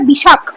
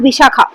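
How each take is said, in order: First: The name ends on a bare consonant. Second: The name ends with an added 'a' vowel. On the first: The speaker calls it right. "But এটা কথাটা বিশাখ" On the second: The speaker calls it wrong. "Not বিশাখা"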